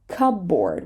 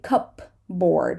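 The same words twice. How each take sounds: First: The p sound is not pronounced. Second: The p sound is pronounced. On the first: The speaker calls it right. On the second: The speaker calls it wrong.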